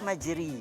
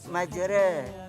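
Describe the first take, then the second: First: The word ends in an i vowel. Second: The final vowel is slightly shifted toward e. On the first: "Kalau baris di bawah majri" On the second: "Kalau baris taklil kita baca majra"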